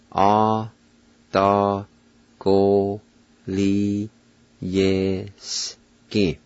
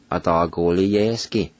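First: "Atagoliyeski" very slow, every syllable held and set apart; syllable-by-syllable pronunciation. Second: Said in the usual way. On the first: Shown as a demonstration. Teacher pronounces Cherokee word for test, "Atagoliyeski" very slowly in separate syllables. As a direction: break "Atagoliyeski" into long syllables with pauses between. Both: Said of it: "now I'll pronounce them".

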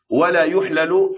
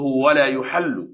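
First: يحلل slow, each ل in its own syllable; unmerged form. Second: يحل slow, with one doubled ل; merged form. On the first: Teacher quoting the irregular word, يحلل slow and unmerged. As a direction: slowly separate the two ل in يحلل. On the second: Teacher giving the base word, يحل slow with doubled ل. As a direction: slowly lean on the doubled ل of يحل. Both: Shown as a demonstration. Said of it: "أصله".

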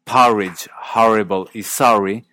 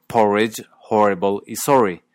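First: "porridge, horrible y sorry" as pahridge, harrible, sahry; unmerged open vowel. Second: "porridge, horrible y sorry" with the o of story; Canadian merged o. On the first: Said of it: "Y así". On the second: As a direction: round each o in "porridge, horrible y sorry", as in sore. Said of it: "terminan sonando". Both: Shown as a demonstration.

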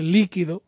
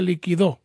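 First: Líquido said as LÍ-qui-do; stress on first syllable. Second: Liquidó said as li-qui-DÓ; stress on last syllable. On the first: Host shows caller the liquid noun, líquido stressed LÍ-qui-do. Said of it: "Si usted mira que no tiene acento". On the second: Host shows caller the past-tense verb, liquidó stressed li-qui-DÓ. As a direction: land the stress on the final DÓ of liquidó. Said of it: "si mira que tiene acento en la O". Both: Shown as a demonstration.

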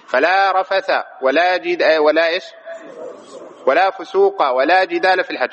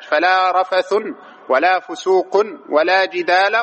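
First: "رفث" and "فسوق" ending in bare -a; "رفث" and "فسوق" with fatha, no tanwin; fatha reading. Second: "رفث" and "فسوق" ending in -un, "جدال" in -a; "رفث" and "فسوق" with nunated damma; tanwin reading. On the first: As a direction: recite rafatha for "رفث", fusuqa for "فسوق". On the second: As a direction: recite rafathun for "رفث", fusuqun for "فسوق". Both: Shown as a demonstration. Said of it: "قرئ بهذا وهذا".

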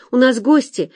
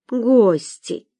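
First: Said in the usual way. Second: ГОСТИ stretched out on a higher pitch; drawn-out. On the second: A narrator's reading. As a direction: draw out the first vowel of Гости. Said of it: "протянула дама". (Гости — протяжно)

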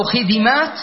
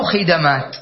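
First: خدمات as khi-di-māt, rising at the end; middle vowel i. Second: خدمات as khi-da-māt, lower, falling end; middle vowel a. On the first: Teacher offers another correct option, خدمات as khi-di-māt. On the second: Teacher offers the last option, خدمات as khi-da-māt. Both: Shown as a demonstration. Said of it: "أو خدمات".

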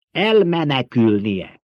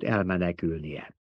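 First: "Elmenekülnie" slow, every syllable weighted; emphatic repetition. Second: Said in the usual way. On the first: A narrator's reading. Emperor drives "Elmenekülnie" home to the baron, emphatic. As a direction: draw out "Elmenekülnie" firmly, falling at the end.

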